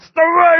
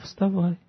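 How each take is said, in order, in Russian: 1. Слово произносится резко и грубо. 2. Слово произносится мягко и нежно.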